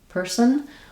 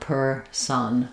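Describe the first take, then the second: First: The second syllable has almost no vowel. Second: The second syllable has a full vowel. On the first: "In American English, that sounds like person, person, with almost no vowel there" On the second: "in African English, it might sound more like per son, with a full um, full vowel on the son syllable"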